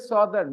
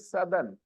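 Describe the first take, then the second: First: It is said to rhyme with northern. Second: It is said not rhyming with northern. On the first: The speaker calls it wrong. "we don't say Southern" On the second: The speaker calls it right. "we say Southern. ... They don't rhyme"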